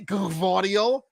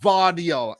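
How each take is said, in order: First: The name starts with a G sound. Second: The name starts with a V sound. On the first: "Do you pronounce the G and the V?" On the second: "leave the G off"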